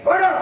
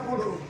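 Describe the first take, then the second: First: It is said in a sharp, commanding tone. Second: It is said in a soft, pleading tone. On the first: The speaker is giving an order. "ಇದು ಆಜ್ಞೆ ಮಾಡಿದ" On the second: The speaker is humbly begging for something. "ಬೇಡುವುದಾದ್ರೆ ಅಯ್ಯ ಧನವನ್ನ ಕೊಡು, ಆ ಯಾಚನೆ ಧ್ವನಿಯಲ್ಲಿಯೇ ಗೊತ್ತಾಗ್ತದೆ"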